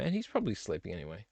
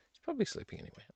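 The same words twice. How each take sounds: First: Said in the usual way. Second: Whispered aside. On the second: Shown as a demonstration.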